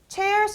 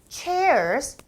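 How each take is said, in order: First: The pitch only jumps up sharply at the end. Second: The pitch dips down and then rises. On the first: The speaker calls it wrong. "끝에만 그냥 무턱대고 올려요" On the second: The speaker calls it right. "chairs 내려갔다 올라가고"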